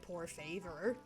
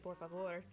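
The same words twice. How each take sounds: First: It is said with a heavy American accent. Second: It is said with a more Spanish-like accent. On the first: The speaker calls it wrong. "I don't say por favor" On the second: The speaker calls it right. "I say por favor"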